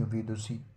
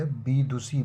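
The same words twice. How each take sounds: First: विदुषी with an opening v; correct form. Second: विदुषी with an opening b; wrong form. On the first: Teacher giving the correction, विदुषी starting with v. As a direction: say विदुषी as vi-du-shi, softer. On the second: Teacher showing the error, विदुषी starting with b. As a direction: say विदुषी as bee-du-shi. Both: Shown as a demonstration. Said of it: "विदुषी नहीं".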